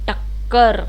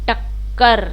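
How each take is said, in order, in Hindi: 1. बीच की k ध्वनि खिंची हुई और दोहरी है। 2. बीच की k ध्वनि खिंची हुई और दोहरी है।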